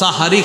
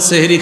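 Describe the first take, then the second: First: The first vowel is an 'a' sound. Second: The first vowel is an 'e' sound. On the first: It names the blessed predawn meal. The speaker calls it right. "বলবেন প্রিয় মুসলমান উঠুন সাহারি খাওয়ার সময় হয়েছে" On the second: It names magic rather than the predawn meal. The speaker calls it wrong. "আর এটা বলবেন না"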